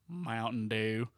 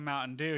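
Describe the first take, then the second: First: It is said in a thick Southern accent. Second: It is said in a plain, neutral accent. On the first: "He said Mountain Dew" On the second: "he didn't say Mountain Dew"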